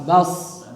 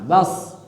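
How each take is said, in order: No difference in how they are said.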